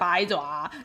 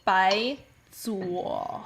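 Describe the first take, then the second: First: It is said with an American pronunciation. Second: It is said with a Mandarin pronunciation. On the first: The speaker calls it wrong. "nobody pronounces it correctly in America. Everybody's like" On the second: The speaker calls it right. "It's bai zuo"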